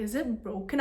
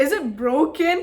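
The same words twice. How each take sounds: First: Said in the usual way. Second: "broken" pushed louder and higher, rising at the end; emphatic repeat. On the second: Retold or imitated. Asking the security woman straight up, louder emphatic question on "broken".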